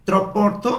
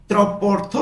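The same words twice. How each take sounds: The two takes are said the same way.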